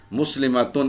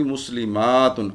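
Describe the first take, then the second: First: مسلماتن as "muslimatun", short "ma"; unstretched مسلماتن, firm final "tun"; singular word form. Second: مسلماتن with a long "maa" before "tun"; teacher's slow مسلماتن, held aa, falling end; long plural ending. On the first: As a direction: keep the vowel before "tun" short in مسلماتن. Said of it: "ایک مسلمان عورت". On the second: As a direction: slowly stretch "muslimaaatun" in مسلماتن. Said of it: "اور اس کی جمع کیا ہوگی؟". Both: Shown as a demonstration.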